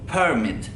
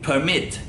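First: The stress is on the first syllable. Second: The stress is on the second syllable. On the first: It is used as a noun. "Vurgu birinci hecedeydi. Yani per'de bizim bir vurgumuz olması gerekiyor" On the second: It is used as a verb. "verb olarak kullandığımızda ise permit şeklinde"

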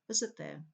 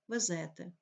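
First: The stress falls where the standard language places it. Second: The stress falls where local dialects place it. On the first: The speaker calls it right. "потрібно" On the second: The speaker calls it wrong. "вплив діалектної системи наголошування"

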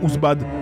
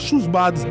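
First: The name starts directly with a vowel sound. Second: The name starts with a consonant sound. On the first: The speaker calls it right. "le H, on ne prononce pas dans Ousbad" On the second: The speaker calls it wrong. "Dites pas Chousbad"

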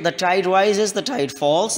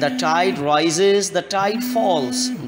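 First: It is read flatly, without feeling. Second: It is read soulfully, with feeling. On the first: The speaker calls it wrong. "you don't have to read the poem in this manner" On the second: The speaker calls it right. "in a mannerful voice"

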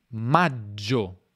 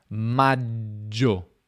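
The two takes are said the same way.

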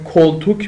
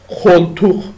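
First: The word uses hard k stops. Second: The word uses raspy kh sounds. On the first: "مبل میشه مثلا کلتوک میشه" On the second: "ولی اینا میگن خلتوخ"

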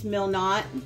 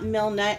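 First: The second syllable sounds like 'not'. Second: The second syllable sounds like 'nut'. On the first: The speaker calls it right. "it's Milnot" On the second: The speaker calls it wrong. "It's not Milnut"

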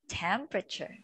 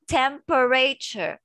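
First: The vowel after 'temp' is dropped, leaving fewer syllables. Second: The vowel after 'temp' is pronounced as a full syllable. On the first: The speaker calls it right. "We don't say the E" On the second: The speaker calls it wrong. "We don't say temperature. That's wrong"

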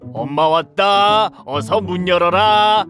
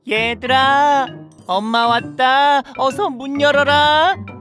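First: It is said in a gruff wolf-like voice. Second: It is said in a gentle mother-like voice.

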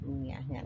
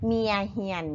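First: The vowels are pronounced as 'uea'. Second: The vowels are pronounced as 'ia'. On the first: This is the standard form of the word. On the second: This is a local, less careful pronunciation.

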